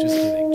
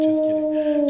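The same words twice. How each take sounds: First: High and bright, teasing; high-pitched playful backpedal. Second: High-pitched playful backpedal. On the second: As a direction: repeat it high and teasing. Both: Real, not acted.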